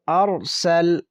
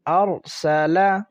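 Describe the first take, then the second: First: The last consonant ends without a vowel. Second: The last consonant carries a short vowel.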